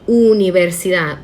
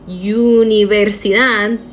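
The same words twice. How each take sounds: First: The first vowel sounds like a plain 'oo'. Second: The first vowel sounds like English 'you'. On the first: The speaker calls it right. "say it like universidad" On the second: The speaker calls it wrong. "a word that looks like universidad"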